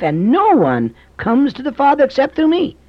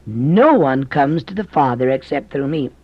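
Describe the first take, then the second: First: Much higher, with the stress on "no"; emphatic repeat. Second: Said in the usual way. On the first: Shown as a demonstration. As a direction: lift "no" high and press it hard. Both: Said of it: "what did Jesus say?".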